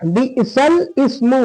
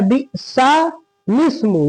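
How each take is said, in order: First: "बिसल इस्मु" with laam stuck to bi'sal, then ismu; common misreading. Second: "बिसा लिस्मु" slowly, open bi'saa, then lis-mu; correct joining. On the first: Retold or imitated. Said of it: "लोग पढ़ते हैं". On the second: Shown as a demonstration. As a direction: move the laam in "बिसा लिस्मु" onto lis-mu. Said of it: "सही क्या है".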